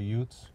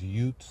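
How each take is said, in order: First: The word ends with a th sound. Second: The word ends with a plain t sound. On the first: This is the usual way to say it. "instead of Utes" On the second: This is how a film character says it. "where he says Utes"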